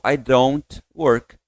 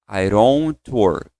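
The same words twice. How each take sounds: First: It is said slowly with a clear D sound. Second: The words link and the D sounds like R. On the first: "Se você fala mais compassado, é automático que você vai falar" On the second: "ele sai com uma ideia de R"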